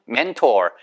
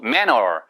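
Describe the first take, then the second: First: The middle t sound is clearly pronounced. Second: The middle t sound is dropped entirely. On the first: "mentor 이렇게 안 하고" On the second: "manner 이렇게 하는 경우도 있어요"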